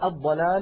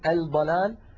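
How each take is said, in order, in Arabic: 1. تندمج اللام في صوت دال مشدد. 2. تُنطق اللام بوضوح قبل الدال. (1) "مثلا" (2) "ولا نقول الضلال"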